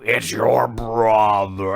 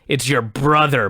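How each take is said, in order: First: It is said in a slow, growling voice. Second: It is said in a normal voice. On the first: "they did something weird with his voice. So he was like growling" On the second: "he was saying something like"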